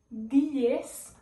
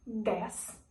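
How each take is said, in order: First: "diez" slowly and louder, with the added i; Spanish pronunciation. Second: "dez" slowly, with an open e; Portuguese pronunciation. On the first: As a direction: say "diez" as dee-ess. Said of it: "em espanhol". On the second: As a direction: say "dez" as dess. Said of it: "em português". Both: Shown as a demonstration.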